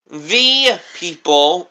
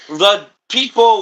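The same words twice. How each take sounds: First: The word 'the' has a long 'ee' vowel. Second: The word 'the' has a short 'uh' vowel. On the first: "as in, thy" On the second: "as the, like"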